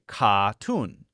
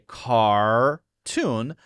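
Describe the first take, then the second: First: The R sound after the first vowel is dropped. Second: The R sound after the first vowel is pronounced. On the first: "a British person might say cartoon" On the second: "Americans will say cartoon"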